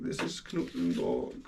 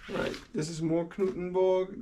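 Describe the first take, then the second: First: Knuthenborg said with a German accent, hard k-nuten-borg; lower, mock-German reading of Knuthenborg. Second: Said in the usual way. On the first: Real, not acted. Sorting zoo maps, names the park in a German accent. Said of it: "with such a German accent". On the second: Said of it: "I don't feel like I should be saying that".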